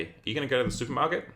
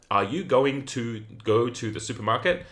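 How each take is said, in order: First: Fast, run-together words with "going to" reduced to "gonna"; connected speech. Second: Every word separate, "going to" said in full; higher-pitched, unlinked words with a full "going to"; full careful forms. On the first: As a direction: link it all quickly, "gonna" in one breath. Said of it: "around connected speech". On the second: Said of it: "So instead of saying". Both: Shown as a demonstration.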